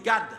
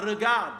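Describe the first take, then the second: First: The word is clipped, first syllable dropped. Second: The word is said in full, all syllables. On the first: "il dit garde" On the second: "il ne dira pas regarde, c'est trop long"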